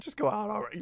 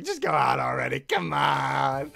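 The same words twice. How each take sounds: First: Said in the usual way. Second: Loud, exasperated shout; shouted urging. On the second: Real, not acted. Fan shouting at the screen for them to go out. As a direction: yell it at the screen.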